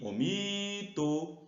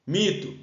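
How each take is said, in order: First: "mito" with a long stretched "mi"; calling the word. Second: Said in the usual way. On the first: Shown as a demonstration. Teacher shows the strong syllable, drawn-out "mi" in "mito". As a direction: call out "mito", holding the first syllable. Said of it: "É o mi". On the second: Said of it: "qual é a sílaba forte?".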